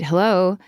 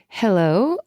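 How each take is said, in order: First: It sounds short and slightly irritated. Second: It sounds light, flirty and casually aloof. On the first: She is irritated by the repeated call. "slightly annoyed" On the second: The caller is meant to find her appealing but unbothered. "trying to sound flirty, yet slightly above being bothered"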